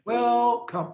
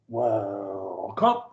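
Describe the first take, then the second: First: The word starts on a high pitch. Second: The word starts on a low pitch. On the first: "You start up high, like welcome" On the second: "or low"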